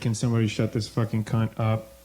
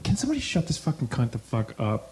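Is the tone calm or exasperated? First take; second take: calm; exasperated. First: It is said in a cool, calm tone. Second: It is said in an exasperated tone.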